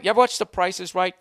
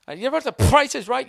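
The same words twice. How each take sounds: First: Said in the usual way. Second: Higher, louder announcer call; game show host voice. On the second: Shown as a demonstration. Host calling to the studio audience, big announcer voice. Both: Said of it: "Did I just spit on my own microphone".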